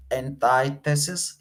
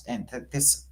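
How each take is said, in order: First: Antithesis said slowly in full, an-TIE-the-sis; careful antithesis. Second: Antithesis cut short, slurred to "antts"; clipped antithesis. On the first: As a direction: spell out antithesis syllable by syllable. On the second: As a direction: rush through antithesis, swallowing the middle. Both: Shown as a demonstration.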